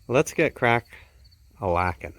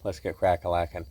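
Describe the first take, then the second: First: There is a pause after 'crack'. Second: It runs on with no pause after 'crack'. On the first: The speaker calls it wrong. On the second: The speaker calls it right.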